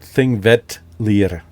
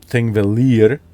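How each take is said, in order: First: A t-like sound comes before the L. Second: The double L is a plain L sound. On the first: The speaker calls it right. "There's always some kind of D or T before the L's" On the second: The speaker calls it wrong. "you're not going to pronounce it Thingvellir"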